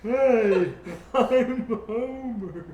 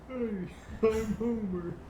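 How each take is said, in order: First: It is said loudly. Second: It is said quietly.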